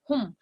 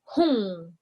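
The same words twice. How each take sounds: First: The word ends with the lips closing. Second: The word ends with the mouth still open. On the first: The speaker calls it wrong. "It's not hum, Your your mouth shouldn't be, you know, closing" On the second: The speaker calls it right. "it's hum"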